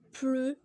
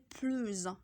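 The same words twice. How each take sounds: First: The word ends on its vowel, no final consonant. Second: The word ends with a linking z sound. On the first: "on dit plus sans prononcer le S" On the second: "quand on fait la liaison, on dit plus"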